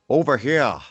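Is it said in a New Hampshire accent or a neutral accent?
New Hampshire. It is said in a New Hampshire accent.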